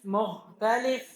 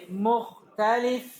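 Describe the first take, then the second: No difference in how they are said.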